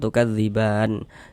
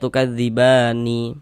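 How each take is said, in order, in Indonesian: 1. Kata ini berakhir dengan huruf nun mati. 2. Kata ini berakhir dengan tambahan vokal i. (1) "kita baca tukadziban begitu" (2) "Jangan dibaca tukadzibani"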